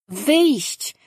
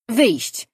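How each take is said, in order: First: Higher, more pushy little creature voice that repeats "Wyjść" with a long falling tune; the pet insisting on "Wyjść" again, stubbornly; insistent creature. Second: High little animal voice that says "Wyjść" once with a falling tune; a small pet chirping "Wyjść" to be let out; little creature's demand. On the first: The pet repeats "Wyjść" to Danin, refusing his no, insistent and high. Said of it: "upierał się Figiel". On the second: The pet in the cage asks Danin for "Wyjść", high and small. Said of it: "powiedział Figiel". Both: A narrator's reading.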